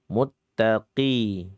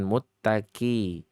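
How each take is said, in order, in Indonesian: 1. Huruf q dibaca tebal, dengan lidah terangkat. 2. Huruf q dibaca tipis, seperti k biasa. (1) "meskipun kasrah ya tetap dibaca tebal" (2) "Bukan muttaqi"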